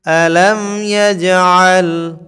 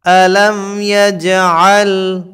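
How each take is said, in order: The two takes are said the same way.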